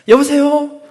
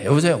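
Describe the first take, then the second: First: The greeting is said in a sweeter tone. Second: The greeting is said curtly and flatly.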